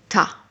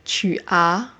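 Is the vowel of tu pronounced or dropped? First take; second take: dropped; pronounced. First: The words merge into one syllable, dropping tu's vowel. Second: Both words are said separately, with the vowel in tu. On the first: "we're going to say ta" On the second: "instead of saying tu as"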